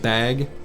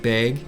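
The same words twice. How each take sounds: First: The vowel is a plain, open 'a'. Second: The vowel is tightened toward 'eh', northern Wisconsin.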